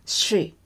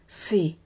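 First: "she" with a drawn-out hushing SH. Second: "sea" with a drawn-out clean S. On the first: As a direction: model "she" slowly, lips drawn in. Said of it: "彼女の発音は". (ゆっくりSHで「she」) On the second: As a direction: model "sea" slowly, lips spread, no SH. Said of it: "海の発音は". (ゆっくりスィーと「sea」) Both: Shown as a demonstration.

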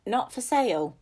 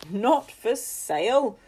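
First: Flat firm refusal, a little louder; firm old woman. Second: Slow, scoffing echo with a dry laugh; mock her refusal in disbelief; dry incredulous laugh. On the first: Acted. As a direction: refuse without budging. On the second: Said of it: "with a dry laugh".

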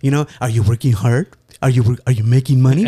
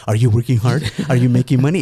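First: Mom's doting tone. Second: That doting tone. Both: Retold or imitated. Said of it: "she's saying it in that tone".

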